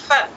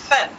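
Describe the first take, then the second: No difference in how they are said.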